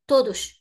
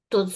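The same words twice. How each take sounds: First: The final s sounds like sh. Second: The final s sounds like z. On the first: The word stands alone, before a pause. "you hear this sh" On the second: The word is linked to a following vowel. "then the sound is z"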